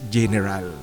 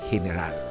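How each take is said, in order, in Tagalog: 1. Nagsisimula ang salita sa tunog na J. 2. Nagsisimula ang salita sa tunog na H. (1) "English na English" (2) "ang pagbigkas niyan sa Espanyol ay general"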